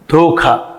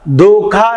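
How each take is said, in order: First: The consonant is said with a breath puff. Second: The consonant is said without a breath puff. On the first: The speaker calls it right. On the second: The speaker calls it wrong.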